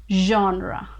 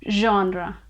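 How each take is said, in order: The two takes are said the same way.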